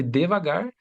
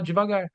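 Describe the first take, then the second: First: "devagar" with a clear DEH at the start; spelling pronunciation of "devagar", first syllable DE; as it is written. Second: "devagar" starting with JEE, higher pitched; everyday spoken "devagar", first syllable softened to JI. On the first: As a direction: say "devagar" as spelt, deh-va-GAR, rising at the end. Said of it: "se escreve devagar". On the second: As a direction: say "devagar" colloquially as jee-va-GAR. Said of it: "mas na hora de falar". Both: Shown as a demonstration.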